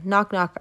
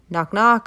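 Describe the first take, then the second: First: It is said at normal volume. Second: It is said a little louder.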